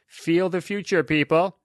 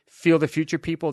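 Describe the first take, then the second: First: There is a pause before 'people'. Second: It runs together without a pause.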